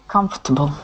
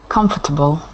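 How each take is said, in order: The two takes are said the same way.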